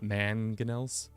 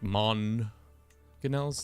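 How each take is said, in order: First: The first syllable sounds like 'man'. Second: The first syllable sounds like 'mon'. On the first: The speaker calls it wrong. "not Manganels" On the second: The speaker calls it right. "Like Monganels, ... Mon"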